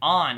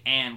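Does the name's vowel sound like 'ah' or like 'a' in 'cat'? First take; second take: ah; a in cat. First: The vowel is an open 'ah' sound. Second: The vowel is like the 'a' in 'cat'. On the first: It follows the pronunciation used in the game. The speaker calls it wrong. "they pronounce it On" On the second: It follows the pronunciation most people know. The speaker calls it right. "I gotta say And, because people won't even know what I'm saying"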